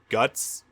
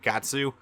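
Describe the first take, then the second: First: The name is said as one short syllable. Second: The name is said with two syllables. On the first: The speaker calls it right. "it is straight up guts" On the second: The speaker calls it wrong. "that's the wrong pronunciation"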